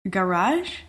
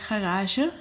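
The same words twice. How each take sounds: First: The word is pronounced the French way. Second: The word is pronounced the Dutch way. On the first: "And in French, you would say garage" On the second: "So in Dutch, we would say garage"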